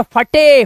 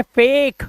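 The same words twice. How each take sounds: First: फटे mis-read in two syllables, 'fa-tay'; फटे as a literal Hindi-style 'fa-TAY'; wrong reading. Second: फेक in one syllable with long 'ay'; फेक rhyming with 'cake'; correct reading. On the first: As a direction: sound the final e in फटे. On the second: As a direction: say फेक with silent final e. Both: Shown as a demonstration. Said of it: "फटे नहीं है, फेक".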